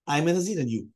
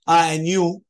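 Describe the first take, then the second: First: "and you" falling at the end; matter-of-fact statement closing on "you"; statement, not question. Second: "you?" pitched up and loud; raised, louder questioning "and you?"; asked as a question. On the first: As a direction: declare it, letting "and you" drop. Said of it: "He didn't ask a question". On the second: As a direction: toss "and you?" out as a loud query. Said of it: "not saying it as a question". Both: Shown as a demonstration.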